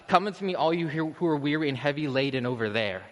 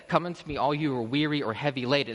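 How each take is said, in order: First: Distant summons. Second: Said in the usual way. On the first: Acted. Preacher showing what Christ is not saying, distant summons. Mock version of distant, aloof call.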